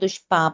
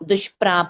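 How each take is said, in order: First: The middle syllable has no r: 'pa'. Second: The middle syllable has an r: 'pra'. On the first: The speaker calls it wrong. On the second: The speaker calls it right.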